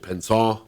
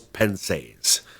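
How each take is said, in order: First: The word is said with a French pronunciation. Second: The word is said with an English pronunciation.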